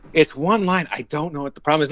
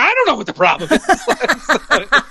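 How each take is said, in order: First: Retold exasperation, quick second sentence; mildly exasperated, moderately raised pitch; exasperated casting director. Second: High-pitched, drawn-out mock despair; mock panic. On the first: Casting director to actor after seven tries, exasperated. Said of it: "by the end of it, he was like". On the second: Flustered actor answering the casting director, mock panic. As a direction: echo it back slowly in a very high, helpless mock wail. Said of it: "And I was like".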